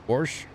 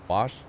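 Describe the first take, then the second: First: The word has an added r sound. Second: The word has no r sound.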